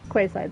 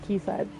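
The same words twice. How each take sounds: First: The first part sounds like 'kway'. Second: The first part sounds like 'key'. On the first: The speaker calls it wrong. "it looks like Quayside to me" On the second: The speaker calls it right. "that's pronounced Quayside"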